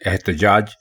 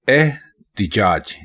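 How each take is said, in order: First: The vowel after t is a short a. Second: The vowel after t is a short i. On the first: The speaker calls it wrong. "ते के ऊपर जबर के साथ पढ़ते हैं एहतजाज, जो कि बिल्कुल गलत है" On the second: The speaker calls it right. "ते के नीचे भी जेर है"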